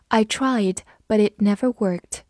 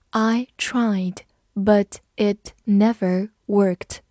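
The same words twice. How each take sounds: First: Said in the usual way. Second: Word by word, slow and evenly separated; slow read-through. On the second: Shown as a demonstration. Teacher demonstrates the example sentence, slow read-through. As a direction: read it slowly so learners can repeat. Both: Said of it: "好，慢读一遍".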